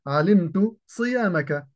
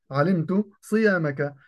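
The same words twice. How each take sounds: The two takes are said the same way.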